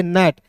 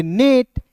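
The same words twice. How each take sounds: First: नेट said as "nat", open short vowel; pronunciation without final e. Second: नेट said with a long "ay" vowel; नेट with the vowel of "day"; long-e pronunciation. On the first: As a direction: say नेट to rhyme with "cat". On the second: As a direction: say नेट as "nayt", not "nat". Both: Shown as a demonstration. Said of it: "अंतिम में ई नहीं रहता तो इसे पढ़ते".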